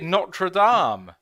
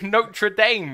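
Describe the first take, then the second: First: It is said with a French pronunciation. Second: It is said with a half-English pronunciation. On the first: The speaker calls it right. "if you would, you'd say Notre Dame" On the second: The speaker calls it wrong. "a bastardization of the French and the English"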